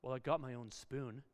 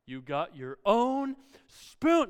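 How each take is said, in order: First: Put-on low, soft kid's grumble; under the breath. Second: Slow, drawn-out mock amazement; sarcastic echo. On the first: Child answering dad's challenge, muttered under the breath. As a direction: imitate muttering a small self-defence. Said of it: "that person under their breath says". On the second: Dad echoing child's boast about the spoon, slow sarcasm. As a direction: stretch OWN and SPOON, loud and sarcastic.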